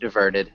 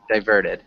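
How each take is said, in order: First: The first vowel is a short 'ih' sound. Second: The first vowel is a long 'eye' sound. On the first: "I say it diverted just because it sounds a little bit more natural to me" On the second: "you can also have the long I"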